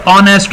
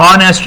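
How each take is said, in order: First: "honest" with a silent h; correct honest. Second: "honest" with the h wrongly sounded; mispronounced honest. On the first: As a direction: start "honest" on the vowel, like "on-est". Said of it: "لفظ honest ہوتا ہے". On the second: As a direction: say "honest" with an audible h at the start, like "ho-nest". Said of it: "honest نہیں ہوتا". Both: Shown as a demonstration.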